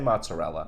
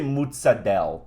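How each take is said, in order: First: It is said in a plain American accent. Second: It is said with an exaggerated Italian-style accent. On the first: The speaker is talking naturally. The speaker calls it right. "Say mozzarella" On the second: The speaker is putting on an Italian flair. The speaker calls it wrong. "Don't say mozzarella"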